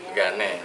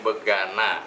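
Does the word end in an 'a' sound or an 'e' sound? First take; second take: e sound; a sound. First: The word ends with an 'e' vowel. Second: The word ends with an open 'a' vowel. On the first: This is how Betawi people say the name. "Kita nyebutnya begane ya" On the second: This is the general name of the dish. "namanya begana"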